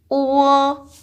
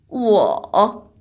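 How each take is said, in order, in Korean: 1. 음높이가 높고 평평하게 유지됩니다. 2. 음높이가 낮게 내려갔다가 올라갑니다.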